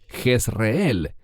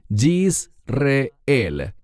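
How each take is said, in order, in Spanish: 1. El nombre se dice en su forma española. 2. El nombre se dice en su forma hebrea. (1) "En español decimos" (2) "¿Por qué enfatizo su pronunciación en hebreo?"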